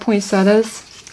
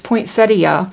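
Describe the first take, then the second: First: The word is said in a Southern US way. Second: The word is said in the standard way. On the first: This is how people say it locally. "I'm from the South, and we say things a little different here" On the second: This is the generally accepted way to say it. "I know the correct pronunciation"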